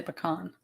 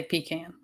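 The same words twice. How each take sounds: First: "pecan" with a short first syllable and an open "kahn"; puh-KAHN for "pecan"; Northern puh-kahn pronunciation. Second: "pecan" with a long ee, then "can" as in tin can; PEE-kan for "pecan"; Southern pee-can pronunciation. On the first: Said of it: "I think they say pecan". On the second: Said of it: "I don't think Northerners say pecan". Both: Shown as a demonstration.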